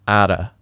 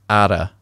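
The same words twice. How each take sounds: First: It is linked with a soft d sound. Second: It is linked with a soft d sound.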